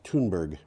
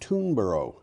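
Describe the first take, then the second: First: The name ends with a 'berg' sound. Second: The name ends with a 'borough' sound. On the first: This is the name as it really is. "But it's Thunberg" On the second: This is how a casual English speaker would say it. "in kind of offhanded English, it becomes Oro. So this would be"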